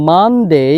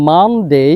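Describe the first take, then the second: No difference in how they are said.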